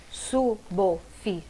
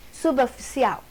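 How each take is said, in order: First: Slow suboficial, su-bo-fi-ci-al with pauses; syllable by syllable. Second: Said in the usual way. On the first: Shown as a demonstration. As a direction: split suboficial into five separate syllables. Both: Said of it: "como separa".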